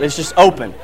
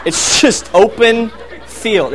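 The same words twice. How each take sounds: First: Said in the usual way. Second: "open" drawn out slow, falling; stressed and slowed. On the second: Shown as a demonstration. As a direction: lean on "open", take it slow. Stressing how empty the yard is.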